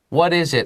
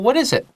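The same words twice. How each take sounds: First: It sounds impatient and annoyed. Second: It sounds relaxed and friendly. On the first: The listener does not want to be bothered. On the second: The listener is happy to help.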